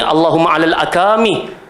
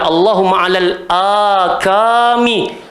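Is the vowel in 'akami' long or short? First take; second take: short; long. First: The vowel in akami is cut short. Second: The vowel in akami is held long. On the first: The speaker calls it wrong. "Saya pula baca kat sini" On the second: The speaker calls it right. "doa dia adalah"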